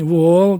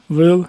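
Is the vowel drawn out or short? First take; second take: drawn out; short. First: The vowel is long and drawn out. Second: The vowel is short and quick. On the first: This is the farther downstream local speech. "там якось отак вони тягнуть" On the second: This is the speaker's home village speech. "А в мене отак"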